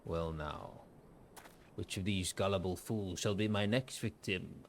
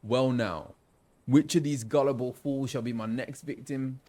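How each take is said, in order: First: Scheming villain. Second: Louder London roadman voice; roadman accent. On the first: First villain take, before picking accent. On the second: Roadman merchant picking out his next victim, street London accent. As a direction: play the villain as a roadman. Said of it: "I feel like I might do a roadman". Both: Acted.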